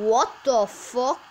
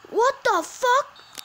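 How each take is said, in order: First: Surprised. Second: High, loud, stretched out; shocked disbelief. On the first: Disbelief at goal. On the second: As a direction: scream it in disbelief. Repeated, higher disbelief. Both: Real, not acted.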